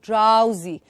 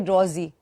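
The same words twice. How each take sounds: First: The first vowel is said as 'ow'. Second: The first vowel is not said as 'ow'. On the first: The speaker calls it right. "remember the ow sound here" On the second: The speaker calls it wrong. "Don't say"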